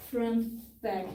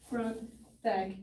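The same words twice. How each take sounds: The two takes are said the same way.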